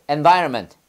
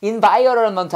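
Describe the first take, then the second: First: "Environment" starting with EN, shortened to "en-VAR-ment"; easy EN pronunciation. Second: "Environment" as a stumbling "in-vai-o-ro-ron-ment"; wrong IN pronunciation. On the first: Teacher modelling for class, "Environment" as easy en-VAI-r-ment. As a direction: begin "Environment" on an E sound, compact middle. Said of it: "이 발음을 N으로 발음하면 편해요". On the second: Teacher showing class the hard way, "Environment" garbled from IN. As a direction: start "Environment" with IN, tangle the middle syllables. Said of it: "이거 인으로 발음하면 발음 잘 안 돼요". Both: Shown as a demonstration.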